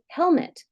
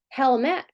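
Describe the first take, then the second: First: The unstressed vowel is reduced to schwa. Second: The unstressed vowel is full and clear. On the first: The speaker calls it right. "we say helmet" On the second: The speaker calls it wrong. "We don't say helmet"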